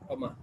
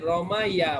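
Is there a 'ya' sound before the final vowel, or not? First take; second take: not; ya. First: The word ends in a long 'a' vowel. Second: The word ends with a 'ya' syllable. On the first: "এটাকে সহজ করার জন্য এটাকে ইয়ার উচ্চারণটাকে আলিফ করা হলো রমা" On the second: "এই যে রমাইয়া মানে সে নিক্ষেপ করলো, ওই ফাআলা ওজনে"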